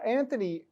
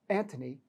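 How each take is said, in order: First: Anthony with a soft th in the middle; Anthony said with a th sound; mispronounced name. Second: Antony with a hard t, no th; Antony corrected to a t sound; corrected name. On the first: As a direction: say Anthony with th, as in thin. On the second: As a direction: say Antony with a plain t in the middle. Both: Real, not acted.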